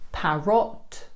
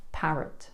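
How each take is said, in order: First: "parrot" slow with a full O vowel; wrong parrot. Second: "parrot" with a soft schwa in the second syllable; natural parrot. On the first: Teacher shows the wrong "parrot". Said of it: "Not parrot". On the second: Teacher models the right "parrot". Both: Shown as a demonstration.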